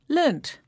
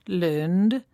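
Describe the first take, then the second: First: The word ends with a t sound. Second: The word ends with a d sound. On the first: "you can hear the D and T sounds at the end" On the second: "you can hear the D and T sounds at the end"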